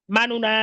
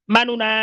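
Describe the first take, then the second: Both takes have the same delivery.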